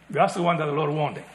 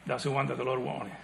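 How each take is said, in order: First: Said in the usual way. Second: Soft emphasis. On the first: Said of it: "repeated softer". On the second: Shown as a demonstration.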